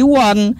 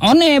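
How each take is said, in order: First: It is read with English sounds, like 'wan'. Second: It is read letter by letter, Indonesian style. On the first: The speaker calls it right. "tapi one" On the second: The speaker calls it wrong. "Bukan bukan bukan one bacanya"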